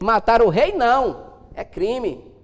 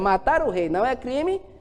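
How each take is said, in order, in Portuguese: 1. Há uma pausa depois de "não". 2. Continua sem pausa depois de "não". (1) "Botou uma vírgula" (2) "a frase que era"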